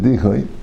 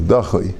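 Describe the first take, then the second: First: The first syllable has an i vowel. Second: The first syllable has an a vowel. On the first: The speaker calls it wrong. "People pronounce it dichoi" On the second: The speaker calls it right. "I think the correct pronunciation probably is dachoi"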